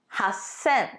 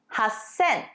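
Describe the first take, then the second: No difference in how they are said.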